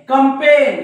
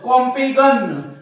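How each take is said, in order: First: The g sound is silent. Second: A g sound is pronounced. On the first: The speaker calls it right. "या जीच्या काही role नाही" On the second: The speaker calls it wrong. "जीचा उच्चार केलं तर"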